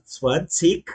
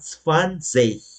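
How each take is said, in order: First: The word ends with a k sound. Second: The word ends without a k sound. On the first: "o final pode ter som de K, no caso zwanzig" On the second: "ou a gente pode falar zwanzig"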